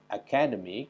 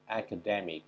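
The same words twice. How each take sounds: First: The stress is not on the third syllable. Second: The stress is on the third syllable. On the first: The speaker calls it wrong. "Jadi bukan academic" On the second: The speaker calls it right. "pada penekanan suku kata ketiga"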